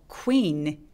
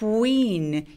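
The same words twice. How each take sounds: First: It starts abruptly without a rounded glide. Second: It starts with a rounded glide before the vowel. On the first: The speaker calls it wrong. "아니고" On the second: The speaker calls it right. "시동 걸어서 quee라고 나눠서 발음합니다"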